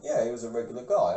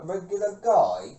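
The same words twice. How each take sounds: First: Said in the usual way. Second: Slow, puzzled rise on regular guy; incredulous echo. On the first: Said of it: "And he went". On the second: Retold or imitated. Echoing father's odd claim, slow and incredulous. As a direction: repeat it back, baffled and drawn out. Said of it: "I'm like".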